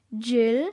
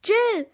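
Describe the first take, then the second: First: Questioning call, louder, rising; startled, rising call of a name; alarmed call. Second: High, loud cry falling at the end; alarmed, urgent yell; frightened shout. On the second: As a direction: shout the name out in sudden fright. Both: A narrator's reading. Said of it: "rief Louis erschrocken".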